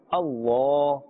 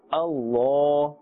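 First: The L is heavy and thick, with a full mouth. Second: The same.

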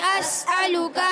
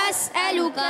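No difference in how they are said.

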